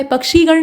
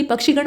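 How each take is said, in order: First: पक्षी गण said 'pak-shee-gan'; पक्षी with long ई. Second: पक्षी गण said 'pak-shi-gan'; पक्षी with short इ. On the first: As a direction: hold the क्षी in पक्षी long. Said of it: "नहीं बल्कि". (पक्षी गण में 'क्षी' दीर्घ बोलें) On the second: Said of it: "बल्कि पक्षी गण होता है". (पक्षी गण को 'पक्षिगण' बोलें) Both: Shown as a demonstration.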